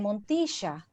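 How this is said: It is said in Argentinian Spanish, with an sh sound. "an Argentinian, probably they will say Montisha, which sounds different"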